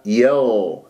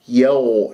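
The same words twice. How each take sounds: First: "يو" as a slow "yagh" with relaxed lips; correct, lengthened ghayn in "يو"; unrounded ghayn. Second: "يو" as "yagh" with lips pursed; rounded lips. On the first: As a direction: hold the voiced gh of "يو" without rounding. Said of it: "لا، يو". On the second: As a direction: round the gh of "يو" towards oo. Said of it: "تكور الشفاه". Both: Shown as a demonstration.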